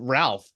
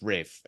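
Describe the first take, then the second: First: The name is said with an L sound. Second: The name is said with no L sound. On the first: This is how the name is spelled. The speaker calls it wrong. "spelled Ralph" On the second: This is how the name is actually said. The speaker calls it right. "but it's pronounced Rafe"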